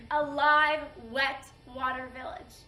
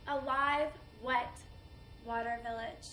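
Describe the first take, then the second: First: Loud first word, then easing; proud celebration. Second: Halting phrase sinking softly away; mournful remembrance. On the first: Woman praising her body as hometown, proud. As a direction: celebrate it, striking the opening loudly. Village remembered proudly before destruction. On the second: Woman mourning her invaded village, subdued. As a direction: break it into pieces and let it fade. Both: Acted.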